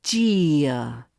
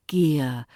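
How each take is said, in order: First: "gear." with a hard CH start, the wrong way; "gear." as CHEER-uh, the mistake; wrong harsh gear. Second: "Gear." with a gentle gliding vowel; "Gear." eased into, no hard edge; gentle glide. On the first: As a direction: spit out "gear." with a CH sound. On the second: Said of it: "Gentle glide". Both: Shown as a demonstration.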